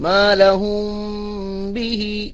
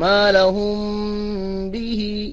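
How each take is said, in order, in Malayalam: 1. m മറഞ്ഞിരിക്കുന്നു, മൂക്കിലെ ഹുമ്മോടെ. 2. m മറഞ്ഞിരിക്കുന്നു, മൂക്കിലെ ഹുമ്മോടെ.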